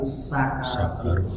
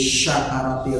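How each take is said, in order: First: The word begins with a plain s sound. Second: The word begins with an sh sound. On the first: It means the intoxication of dying. The speaker calls it right. "tapi sakaratil. Kusin Pak, bukan syin" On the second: It would mean gratitude rather than intoxication. The speaker calls it wrong.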